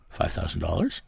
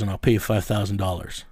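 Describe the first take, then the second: First: Questioning rise, softer, in disbelief; incredulous echo. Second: Said in the usual way. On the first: Retold or imitated. Partner hearing the offer, mild incredulous question. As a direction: repeat the sum back as if unsure. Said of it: "And he goes". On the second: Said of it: "I says".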